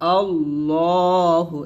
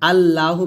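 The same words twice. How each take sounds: First: The L sound is heavy and thick. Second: The L sound is light and thin. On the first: The speaker calls it right. "লামটা মোটা হবে আল্লাহু এরকম" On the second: The speaker calls it wrong. "আল্লাহু বলবেন না"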